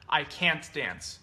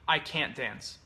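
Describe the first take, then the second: First: It is said carefully, with every sound full. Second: It is said in a relaxed, reduced conversational way.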